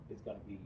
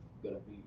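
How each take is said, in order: Both takes have the same delivery.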